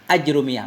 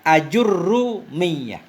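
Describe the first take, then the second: First: No vowel follows j, and the r is single. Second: A u follows j, and the r is doubled. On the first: "sukun jim aj, dan dhammah ra, ra yang diringankan" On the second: "dengan dhammah jim aju, dan dengan tasdid ra"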